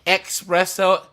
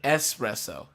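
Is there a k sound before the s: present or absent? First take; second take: present; absent. First: It starts with an added k sound. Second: It starts with no added k sound. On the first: The speaker calls it wrong. "people say uh, espresso instead of" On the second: The speaker calls it right. "instead of espresso"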